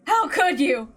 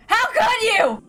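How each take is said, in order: First: Higher, anguished accusing; tearful reproach. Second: Very high, breaking with grief and rage; anguished cry. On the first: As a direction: choke out the blame. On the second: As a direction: let the question crack into a cry. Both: Acted. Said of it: "obscured by anger and tears".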